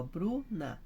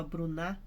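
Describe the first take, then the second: First: "Bruna" with BRU held long, NA dropping; stress on BRU. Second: "Bruna" said as bru-NÁ, stress on the last syllable; wrong final stress. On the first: Teacher thinking it through with the class, "Bruna" stressed on BRU. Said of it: "então Bru que é forte". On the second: Teacher showing the class a wrong stress, "Bruna" as bru-NÁ. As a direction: shift the stress of "Bruna" onto NA. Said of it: "senão ficava Bruna". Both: Shown as a demonstration.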